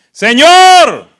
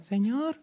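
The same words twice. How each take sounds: First: Loud, high drawn-out shout; shouted cry. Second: Small, high, soft call; a timid, half-hearted attempt at crying out; feeble mock cry. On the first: Acted. Blind men crying out to Jesus, shouted. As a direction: cry out at full voice. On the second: How we imagine the blind men called, feebly. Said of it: "porque a veces pensamos, gritaron".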